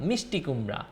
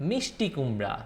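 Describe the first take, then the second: No difference in how they are said.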